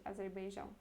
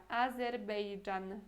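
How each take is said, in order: First: Said in the usual way. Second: "Azerbeidjan" said the Polish way, slow and clear; "Azerbeidjan" slowly, with the Polish zh sound; Polish Azerbejdżan. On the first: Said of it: "Um pouco diferente". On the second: Shown as a demonstration. Teacher showing Polish "Azerbeidjan" to Portuguese learners, slow and clear. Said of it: "A pronúncia é até que parecida".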